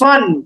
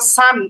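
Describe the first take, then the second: First: The vowel is a heavy, rounded 'o' sound. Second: The vowel is an open, long 'aa' sound. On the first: The speaker calls it right. "আকারের উচ্চারণ হয় না" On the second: The speaker calls it wrong. "কখনোই সদ দুই জবর সান এমন না"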